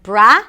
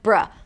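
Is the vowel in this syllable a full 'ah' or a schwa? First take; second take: full ah; schwa. First: The vowel is a full, open ah sound. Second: The vowel is a short, neutral schwa sound. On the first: The speaker calls it wrong. "Not bra" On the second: The speaker calls it right. "but bruh. ... a schwa sound. It's a very neutral vowel sound"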